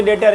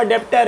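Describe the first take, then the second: First: "डेटर" with no b or p sound before the t; silent b. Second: "डेप्टर" with the b sounded as a p before the t; spelling pronunciation. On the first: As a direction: say "डेटर", leaving the written b silent. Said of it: "बी silent होता है". ("डेटर" में बी silent, सीधे ट की आवाज़) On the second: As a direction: say "डेप्टर" as it is written, pronouncing the silent letter. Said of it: "अब लिखा हुआ डेप्टर है". ("डेप्टर" लिखे हुए अक्षरों के अनुसार, प की आवाज़ के साथ) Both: Shown as a demonstration.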